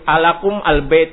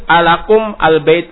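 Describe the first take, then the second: No difference in how they are said.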